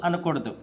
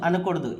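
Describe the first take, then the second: The two takes are said the same way.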